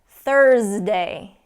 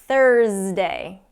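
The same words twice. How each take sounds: No difference in how they are said.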